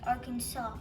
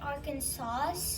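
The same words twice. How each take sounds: First: The word ends with a 'saw' sound. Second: The word does not end with a 'saw' sound. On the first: The speaker calls it right. "actually pronounced Arkansas with a saw in the end" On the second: The speaker calls it wrong. "Some people say Arkansas"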